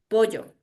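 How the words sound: The double L has a highland Ecuadorian sound. "yo aquí en la sierra... escuchen mi fonema, la L doble"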